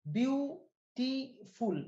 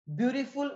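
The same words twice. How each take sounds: First: beautiful slowly broken into three syllables, byu-ti-ful. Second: Said in the usual way. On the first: Shown as a demonstration. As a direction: say beautiful in three separate beats, pausing between syllables. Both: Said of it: "तीन syllable हैं".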